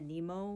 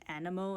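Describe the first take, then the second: First: It is pronounced the commonly heard way. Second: It is pronounced the Greek way. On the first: It follows how many players say it. "which a lot of people have been saying" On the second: It follows the Greek source word. "I'm going with Greek pronunciations, which is animo"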